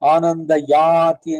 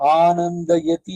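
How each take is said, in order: First: The vowel before the last syllable is long. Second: The vowel before the last syllable is short. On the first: This form is lengthened to keep the Vedic metre. The speaker calls it wrong. "ತಪ್ಪು ಸಂಸ್ಕೃತ" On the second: This is the standard grammatical form. The speaker calls it right. "ಸರಿಯಾದ ಪ್ರಯೋಗ"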